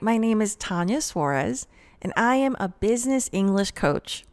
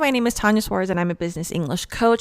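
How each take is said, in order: First: It is said slowly with pauses. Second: It is said quickly without pausing. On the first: The speaker calls it right. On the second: The speaker calls it wrong.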